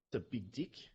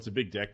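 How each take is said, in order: First: The word deck is said in a New Zealand accent. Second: The word deck is said in a plain accent.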